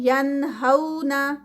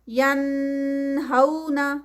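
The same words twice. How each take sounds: First: The n is short, without nasal prolongation. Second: The n is stretched with a long nasal hum. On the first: The speaker calls it right. "उस पर गुन्ना नहीं किया" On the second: The speaker calls it wrong. "नून को मैंने स्ट्रेच कर दिया है, नून पे गुन्ना कर दिया है"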